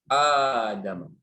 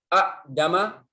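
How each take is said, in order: First: The glottal stop becomes a long vowel. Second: A glottal stop follows the first vowel. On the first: "digantikan hamzah yang kedua alif" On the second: "Ini contohnya a'dama"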